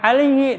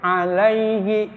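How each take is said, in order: First: The middle vowel sound is short. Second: The middle vowel sound is held long. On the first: The speaker calls it wrong. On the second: The speaker calls it right. "Dia ditahan"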